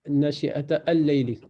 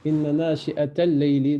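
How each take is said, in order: First: "al-layli" restarted with a sounded "a" after "nashi'ata"; counter-example with "al" pronounced separately; wrong unlinked reading. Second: Words joined, "nashi'ata al-layli" run together without a break; linked reading. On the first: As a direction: break before "al-layli" and voice its first vowel. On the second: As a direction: glide straight from "nashi'ata" into "l-layli". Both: Shown as a demonstration. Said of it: "on ne dit pas".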